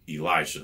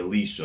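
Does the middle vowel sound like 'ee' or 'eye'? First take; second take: eye; ee. First: The middle vowel sounds like 'eye'. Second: The middle vowel sounds like 'ee'. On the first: The speaker calls it right. "it's an I there. It's not an E" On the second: The speaker calls it wrong. "people say Elisha instead of"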